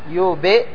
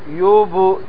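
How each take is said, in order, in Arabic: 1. الصدى بعد الباء يميل إلى i. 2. الصدى بعد الباء يميل إلى u. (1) "هذا الآن ميلان إلى الكسر" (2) "تجعلها على حركة ما قبلها"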